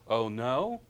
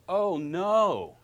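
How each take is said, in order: First: It is said in a questioning way. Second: It is said in a dismayed way. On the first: The speaker is asking what happened. "There's a question" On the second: Something bad has happened. "Something bad happened, probably"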